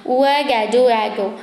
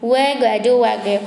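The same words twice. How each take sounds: The two takes are said the same way.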